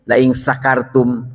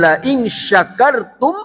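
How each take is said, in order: First: The word begins with an 's' sound. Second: The word begins with a 'sh' sound. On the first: The speaker calls it wrong. "jangan pakai sin" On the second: The speaker calls it right. "pakai shin"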